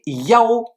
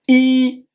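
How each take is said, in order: First: The syllable is pronounced yao. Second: The syllable is pronounced yi. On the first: This reading is used when saying digits in numbers. "il peut aussi se prononcer Yao lorsqu'il est utilisé par exemple pour un numéro de chambre" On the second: This is the ordinary reading meaning one. "qui se prononce I"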